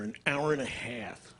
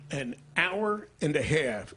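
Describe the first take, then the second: First: Said in the usual way. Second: "An hour and a half" stretched out slowly; "An hour and a half", slow and weighty for effect; emphatic repeat. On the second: Shown as a demonstration. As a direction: dwell on each word of "An hour and a half".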